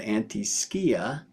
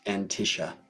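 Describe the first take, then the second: First: The middle consonants sound like sk. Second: The middle consonant sounds like sh. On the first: This keeps the Greek word for shadow audible. "as the Greeks would" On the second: This is how people commonly say it. "as they call it"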